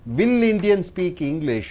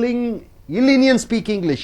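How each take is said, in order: First: The first word is said fully with a w. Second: The first word is reduced to ill, no w.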